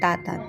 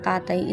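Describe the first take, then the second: First: The word ends with a t sound. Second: The word ends with a y sound. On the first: The speaker calls it wrong. "nagiging tatat" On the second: The speaker calls it right. "yung salitang tatay"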